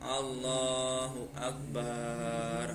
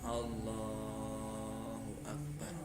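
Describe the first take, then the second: First: The vowel after the b is drawn out long. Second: Only Allah is drawn out; Akbar stays short. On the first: The speaker calls it wrong. "Kalau dipanjangkan contohnya" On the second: The speaker calls it right. "yang boleh dipanjangkan hanya Allahnya saja"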